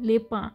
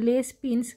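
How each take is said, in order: First: The s sounds drop and the vowel is nasal. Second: Every written letter, including final s, is sounded. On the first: "সেটাকে বলে লেপা" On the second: "যেটার নাম লেস পিন্স"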